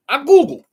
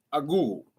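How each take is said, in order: First: High, loud burst on I Googled; emphatic. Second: Said in the usual way. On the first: Real, not acted. Vlogger stressing to viewers that he looked it up, loud and high. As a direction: blurt out I Googled with a jolt.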